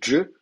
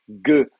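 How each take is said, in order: First: The consonant is a dj sound. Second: The consonant is a hard g sound. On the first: This is how it is said in the Maghreb. "va se prononcer dje au Maghreb" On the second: This is how it is said in Egypt. "va se prononcer ge en, en Égypte"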